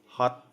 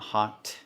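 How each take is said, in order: First: The final t stops suddenly with no release. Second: The final t is released with a puff of air. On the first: The speaker calls it right. "it's hot" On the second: The speaker calls it wrong. "It's not hot"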